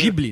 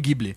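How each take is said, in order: First: The word begins with a soft j sound. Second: The word begins with a hard g sound. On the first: The speaker calls it right. "Ghibli, não Ghibli. ... Katakana é Jiburi" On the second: The speaker calls it wrong. "não Ghibli"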